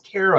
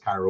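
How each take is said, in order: First: The name sounds like the syrup Karo. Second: The name sounds like the Egyptian city Cairo. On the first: The speaker calls it wrong. "everybody pronounces it Caro ... Caro is a syrup" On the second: The speaker calls it right. "I know it's Cairo"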